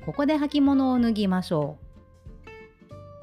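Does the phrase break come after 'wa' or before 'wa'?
before wa. The phrase break comes just before 'wa'. Take off your footwear here. "そのままね続けて読むとどうなるか、ちょっと読んでみますね"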